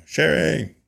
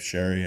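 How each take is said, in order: First: Higher-pitched mock call to someone; retold yell. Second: Said in the usual way. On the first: Beekeeper calls his wife out to the bees, mock yell. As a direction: imitate calling out for a wife. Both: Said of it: "yelled at my wife".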